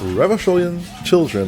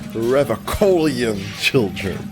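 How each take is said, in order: First: The 'ch' sound is soft. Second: The 'ch' sound is hard. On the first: The speaker calls it wrong. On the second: The speaker calls it right.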